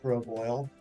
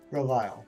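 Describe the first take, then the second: First: The second part sounds like 'oil'. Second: The second part sounds like 'aisle'. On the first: The speaker calls it wrong. "Not Grove Oil" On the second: The speaker calls it right. "There's not an extra O there"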